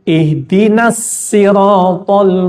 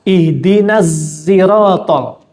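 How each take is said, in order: First: Sirat begins with a light plain s sound. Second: Sirat begins with a voiced z-like sound. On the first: This is another accepted reading of the verse. "yang kedua pakai sin" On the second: This is a third accepted reading of the verse. "Itu dibaca dengan za"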